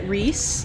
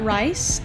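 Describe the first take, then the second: First: The vowel sounds like ee. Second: The vowel sounds like eye. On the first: The speaker calls it right. "you pronounce it Reese" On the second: The speaker calls it wrong. "and not Rice"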